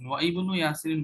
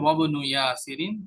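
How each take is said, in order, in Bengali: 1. wa এর পরে i ধ্বনিটি উচ্চারিত হয়। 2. wa এর পরে i ধ্বনিটি বাদ যায়। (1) "বললে এটা ইনকারেক্ট হবে, রং হবে" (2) "কি বলতে হবে?"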